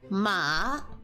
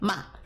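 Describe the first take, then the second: First: The pitch rises from middle to high. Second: The pitch falls sharply from high. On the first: "going up" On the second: "Fourth tone going down"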